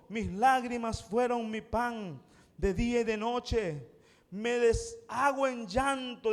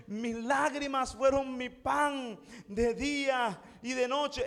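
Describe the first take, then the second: First: Intense lament. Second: Exaggerated lament. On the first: Retold or imitated. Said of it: "revela la intensidad de su dolor". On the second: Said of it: "Exagerando la nota".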